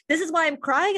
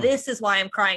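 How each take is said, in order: First: Higher, questioning lift on "crying"; puzzled rising question. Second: Said in the usual way. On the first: Retold or imitated. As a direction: ask yourself "This is why I'm crying?" with a rising lilt. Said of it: "And sometimes I'm like". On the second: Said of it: "sometimes I'm like".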